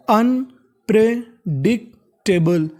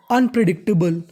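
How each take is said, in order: First: unpredictable stretched out slowly, sound by sound; slow syllable by syllable. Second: Said in the usual way. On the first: Shown as a demonstration. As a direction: spell out unpredictable slowly for students. (धीरे-धीरे शब्द तोड़कर) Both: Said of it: "अब पूरी मिला के पढ़ते हैं".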